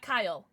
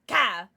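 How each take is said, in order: First: Said in the usual way. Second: Ka barked as one loud syllable; Cartman's Kyle. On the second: Retold or imitated. Streamer correcting the child's name to Cartman's loud Ka. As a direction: drop the L and punch out Ka. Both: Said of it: "not Kyle".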